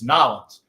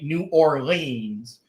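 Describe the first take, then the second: First: The name is said in a clipped Southern form. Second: The name is said in a standard, full form. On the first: The speaker calls it right. "that's how you say it because I'm from the South" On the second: The speaker calls it wrong. "It ain't New Orleans"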